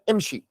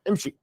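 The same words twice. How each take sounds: First: The sh sound is pronounced clearly. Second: The sh sound is barely pronounced. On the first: "you say to a man" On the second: "they barely pronounced the sheen"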